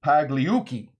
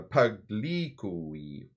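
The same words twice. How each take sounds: First: Pagliucci said in one confident go; loud, sure Pagliucci; corrected attempt. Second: Pagliucci felt out very slowly; slow, groping Pagliucci; uncertain attempt. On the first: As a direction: land Pagliucci firmly, without groping. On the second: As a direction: stretch Pagliucci out, unsure of its syllables. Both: Real, not acted. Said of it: "Let me get that right".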